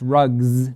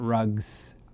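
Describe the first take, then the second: First: The word ends with a buzzing z sound. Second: The word ends with a hissing s sound. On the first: The speaker calls it right. "it is a z sound" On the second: The speaker calls it wrong. "she wanted to have the S sound"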